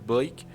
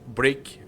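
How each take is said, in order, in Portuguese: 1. O sobrenome é pronunciado com som de l. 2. O sobrenome é pronunciado com som de r. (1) "eu tenho uma mania de falar Blake pra ele" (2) "é Break na verdade"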